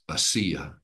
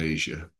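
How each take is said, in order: First: The middle consonant is a hard s sound. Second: The middle consonant is a soft zh sound. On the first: The speaker calls it right. "in the language of the New Testament, because of the letters and the accents, it's Asia" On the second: The speaker calls it wrong. "not Asia"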